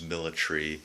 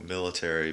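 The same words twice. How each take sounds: First: It is said in a British way. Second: It is said in a North American way.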